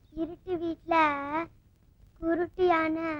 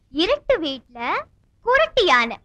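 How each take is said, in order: First: Soft, level, halting repeat; pondering aloud. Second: Slow, swinging riddle lilt; riddle posing. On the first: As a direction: think it over aloud, quietly. Player repeats riddle while thinking. (யோசித்தபடி மெதுவாக முணுமுணுத்தல்) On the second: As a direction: pose it clearly, stretching each phrase. Poses the second riddle. (விடுகதை கேட்கும் இழுத்த தொனி) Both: Acted.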